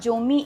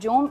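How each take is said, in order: First: The word ends in an 'ee' vowel. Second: The word ends on a consonant. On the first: "it's not जोमी" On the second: "it's not जोम"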